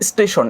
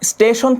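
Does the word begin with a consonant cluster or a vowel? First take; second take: vowel; consonant cluster. First: An extra short i vowel comes before it. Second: It starts directly with the consonant cluster.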